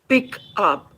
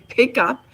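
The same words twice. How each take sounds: First: The p is said without a puff of air. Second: The p is said with a puff of air. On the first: "The way we speak, of course, it will be p" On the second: "he will aspirate it"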